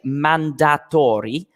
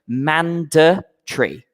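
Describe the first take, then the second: First: Every letter is sounded out as spelled. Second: It is not sounded out as spelled. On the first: The speaker calls it wrong. "we don't say mandatory. Okay, it's not phonetic" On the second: The speaker calls it right. "we say mandatory"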